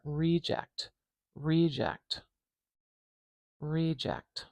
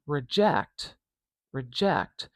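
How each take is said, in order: First: REject, first syllable long and strong; stress on the start. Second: ReJECT, second syllable stressed, first syllable light; stress on the end. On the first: Teacher modelling the noun "reject" for learners, stress on the first syllable. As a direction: say "Reject" with power on "Re". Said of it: "do you hear how the stress has changed". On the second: Teacher modelling the verb "reject" for learners, stress on ject. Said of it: "the stress is on the end of this word". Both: Shown as a demonstration.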